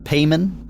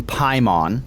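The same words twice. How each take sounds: First: Paimon said PAY-mun, questioning; first syllable like "pay", weak ending in Paimon; alternative pronunciation. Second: Paimon said PIE-mon; first syllable like "pie", full "mon" ending in Paimon; alternative pronunciation. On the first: Host unsure of a demon's name, Paimon as PAY-mun. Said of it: "I've heard so many different". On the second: Host trying out a demon's name, Paimon as PIE-mon. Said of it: "How do you say it". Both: Shown as a demonstration.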